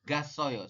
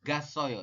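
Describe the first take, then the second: First: The two a vowels merge into one. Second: The same.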